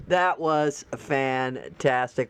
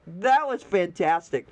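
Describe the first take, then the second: First: Lower, slow, drawn-out That was fantastic; slow savoring. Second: Said in the usual way. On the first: Real, not acted. Praising the fixed post, savoring it slowly. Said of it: "repeated slow savoring". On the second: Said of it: "first take of praise".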